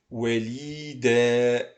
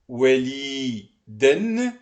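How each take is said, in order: First: The word ends with a long a vowel. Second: The word ends with an n sound. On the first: The word ends the sentence. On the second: The word is in the middle of the sentence.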